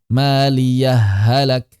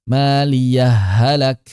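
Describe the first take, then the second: The two takes are said the same way.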